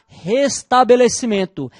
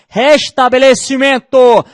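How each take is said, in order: First: It is said without the Northeastern Brazilian accent. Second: It is said with a Northeastern Brazilian accent.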